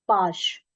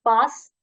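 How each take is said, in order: First: पाश ending in a hushing "sh"; palatal sh. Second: पास ending in a crisp "s"; dental s. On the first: Teacher drilling sound differences, पाश with final sh. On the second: Teacher drilling sound differences, पास with final s. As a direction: say पास with the tongue at the gums for s. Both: Shown as a demonstration. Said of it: "उच्चारण करते हुए अंतर समझिए".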